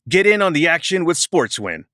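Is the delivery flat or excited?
excited. It is read with more excitement and energy.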